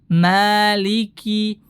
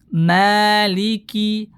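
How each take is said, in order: First: The first vowel is fully open and clear. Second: The first vowel is fully open and clear.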